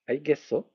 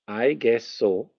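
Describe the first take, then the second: First: It is pronounced slightly altered, like a Korean word. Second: It is pronounced as ordinary English words. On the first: It means okay. "If you change the pronunciation slightly" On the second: The speaker is guessing that something is so. "as in I'm guessing so"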